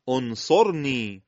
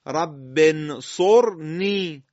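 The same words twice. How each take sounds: First: انصرنی said slowly alone, beginning with "o" as in "onsorni"; starting with damma. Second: رب انصرنی slow and loud, "rabb" running straight into "ensorni"; joined recitation. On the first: Teacher shows students the word's opening vowel, slow demo. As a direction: start انصرنی with a rounded "o" hamza. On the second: Teacher recites the example verse aloud, slow linked reading. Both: Shown as a demonstration.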